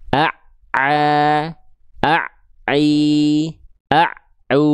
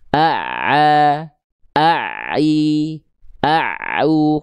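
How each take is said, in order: First: The doubled ain sound breaks off abruptly. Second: The doubled ain sound flows on slightly. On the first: The speaker calls it wrong. "Jadi bunyi ain tasydidnya itu putus" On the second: The speaker calls it right. "Dia nggak putus"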